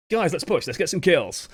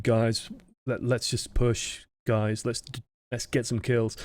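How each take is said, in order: First: Upbeat, into-it shot call; rally the team, higher and confident; keen, friendly urging; open and friendly. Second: Slow, halting, dejected shot call; half-hearted, downcast urging. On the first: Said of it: "sound open and friendly and". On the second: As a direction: sound defeated, softly trailing. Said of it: "a little bit dejected". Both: Shown as a demonstration.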